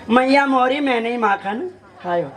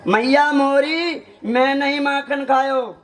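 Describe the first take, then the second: First: "मैया मोरी मैं नहीं माखन" in one run, then "खायो"; कहने का अंदाज़. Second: Slow "मैया मोरी", pause, then "मैं नहीं माखन खायो"; कहने का बदला अंदाज़. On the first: ("मैया मोरी मैं नहीं माखन" बिना रुके) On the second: ("मैया मोरी" खींचकर, रुककर "मैं नहीं माखन खायो") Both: Shown as a demonstration. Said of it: "सिर्फ स्टाइल की बात है".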